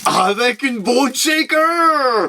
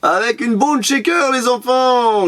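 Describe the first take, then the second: First: High, long drawn-out fanfare; hammed-up reveal. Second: High, brisker showman's call; playful announcement. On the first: Vlogger revealing the toy on a keyring, hammed-up excitement. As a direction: swell it out slowly, high and showy. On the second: Pretend. Vlogger telling the kids watching about the toy, playful announcement. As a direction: call it out high at an ordinary pace. Repeats reveal at brisker pace to viewers.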